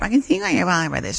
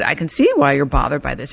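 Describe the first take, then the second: First: It sounds flat, like reading a script. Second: It sounds warm and sincerely meant.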